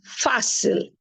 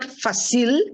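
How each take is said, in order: First: The stress is on the first syllable. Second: The stress is on the last syllable. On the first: The speaker calls it right. "accent shows that the stress is not on the last syllable" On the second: The speaker calls it wrong. "this is not fácil"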